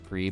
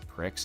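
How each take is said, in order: First: The word ends in a plain ee sound. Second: The word ends in a ks sound.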